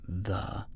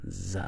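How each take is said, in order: First: It begins with a soft th sound. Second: It begins with a buzzing z sound. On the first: "instead of saying the" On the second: "they would say z"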